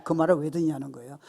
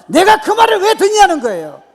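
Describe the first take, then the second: First: Said in the usual way. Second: High, roaring indignant retort; defiant shout. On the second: Acted. David rejecting talk of his failure, defiant shout. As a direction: hurl the question back at full volume. David refusing discouraging words, repeated forcefully.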